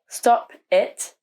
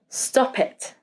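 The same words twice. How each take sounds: First: The two words are separated by a gap. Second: The two words are joined without a gap. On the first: The speaker calls it wrong. "We don't say stop it with a gap in between" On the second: The speaker calls it right. "We link them together and say stop it"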